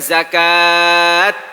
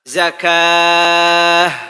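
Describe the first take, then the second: First: The word ends with a t sound. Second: The word ends with an h sound. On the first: The speaker calls it wrong. "bukan zakat layaknya ta" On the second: The speaker calls it right. "Dibaca zakah layaknya ha"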